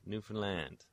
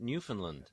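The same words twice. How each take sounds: First: The final syllable is a full, clear 'land'. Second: The final syllable has a weak, reduced vowel. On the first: This is how locals say it. "people from Newfoundland say land" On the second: This is how many outsiders say it. "A lot of people call it Newfoundland"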